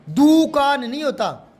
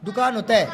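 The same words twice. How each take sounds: First: दुकान slowed into "doooo-kaan"; long-vowel error. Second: दुकान with a quick short "du"; short-vowel correction. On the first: Teacher mimicking confused pupils, दुकान with stretched "doo". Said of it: "बड़ा दू आएगा". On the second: Teacher correcting pupils, दुकान with short "du". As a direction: say दुकान as "dukaan", short u, falling. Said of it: "छोटा दू आएगा". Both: Shown as a demonstration.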